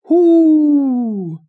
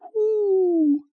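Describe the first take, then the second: First: It is said in a deep, loud voice. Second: It is said in a tiny, quiet voice.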